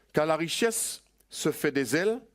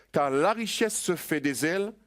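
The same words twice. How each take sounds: The two takes are said the same way.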